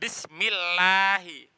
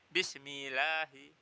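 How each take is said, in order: First: The 'l' sound is doubled and held long. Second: The 'l' sound is single and short. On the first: The speaker calls it right. "Perhatikan tasdid-tasdidnya" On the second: The speaker calls it wrong. "nggak boleh Bismillahi"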